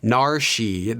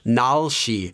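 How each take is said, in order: First: An r-like sound comes before 'shi'. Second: An l-like sound comes before 'shi'. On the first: "tried to say it as an R or an L ... that would sound very awkward" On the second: "as well as"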